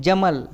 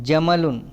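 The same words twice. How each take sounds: First: "జమల్" closed on a vowelless l; stopped ending. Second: "జమలున్" with its final -un sounded; careful full-form "జమలున్"; full word ending. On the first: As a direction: stop on the l of "జమల్", with no -un. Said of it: "చివరి అక్షరానికి సుకూన్ ఇస్తారు". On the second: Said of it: "అప్పుడు ఆ పదం జమలున్ అవుతుంది". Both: Shown as a demonstration.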